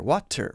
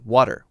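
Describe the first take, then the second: First: The middle consonant is a crisp T sound. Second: The middle consonant is a light D sound. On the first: The speaker calls it wrong. "That's a T sound, but we're not saying water" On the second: The speaker calls it right. "We're still saying a very light D sound"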